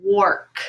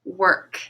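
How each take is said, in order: First: "work" said with the or of fork, /wɔɹk/; "work" with the or vowel of fork, not the er of bird; wrong reading. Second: "work" said with the er of bird, /wə˞k/; "work" with the er vowel, as in bird; right reading. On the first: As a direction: read "work" as if it rhymed with fork. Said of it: "then this word would be". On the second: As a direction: say "work" properly, w-er-k. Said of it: "this word is work". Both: Shown as a demonstration.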